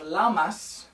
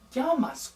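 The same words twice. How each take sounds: First: The double L is pronounced like English L. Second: The double L is pronounced like a Y. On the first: The speaker calls it wrong. "So it's not llama or llamas, which you think makes you think of an animal" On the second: The speaker calls it right. "It's going to be llamas"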